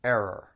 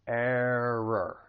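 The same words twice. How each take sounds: First: ERROR stressed on "ER"; first-syllable stress. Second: ERROR drawn out as "AIR-rer"; slow model of both R sounds in ERROR; slow first-syllable stress. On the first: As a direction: model ERROR as AIR-er, weak second syllable. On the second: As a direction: stretch ERROR slowly, leaning on the first syllable. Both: Shown as a demonstration. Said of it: "stress is on the first syllable".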